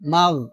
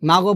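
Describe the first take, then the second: First: The final gh ends smoothly without any bounce. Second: The final gh has a bouncing, echoing release. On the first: The speaker calls it right. "বলতে হবে" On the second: The speaker calls it wrong. "আমরা এখানে কলকলা করে ফেলি"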